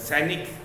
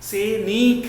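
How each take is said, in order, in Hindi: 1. 'न' के बाद का स्वर छोटा बोला जाता है। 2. 'न' के बाद का स्वर लंबा बोला जाता है। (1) "न पे न कम देर के लिए बोला जाता" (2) "ये न पे बड़ी ई की मात्रा है तो इसे ज़रा लंबा अधिक देर तक बोला जाता है"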